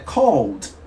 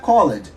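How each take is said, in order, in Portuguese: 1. A terminação não tem vogal extra, é uma sílaba só. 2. A terminação é falada como uma sílaba extra com vogal. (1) "é called" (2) "a pronúncia correta não é called"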